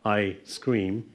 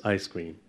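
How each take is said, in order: First: "I scream" with a clear pause after I; deliberate word break. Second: "I scream" said as one unit, like ice cream; no gap between I and scream; run-together words. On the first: Lecturer repeating the demo for students, deliberate word break. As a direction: separate I from scream, two distinct words. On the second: Lecturer contrasting it for students, run-together words. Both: Shown as a demonstration. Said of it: "I was deliberate there".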